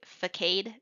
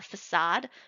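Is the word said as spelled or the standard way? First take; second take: as spelled; standard. First: The word is said as it is spelled. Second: The word is said the standard way. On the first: The speaker calls it wrong. "I would say facade because that's that's how it looks" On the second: The speaker calls it right. "I used to say the word uh"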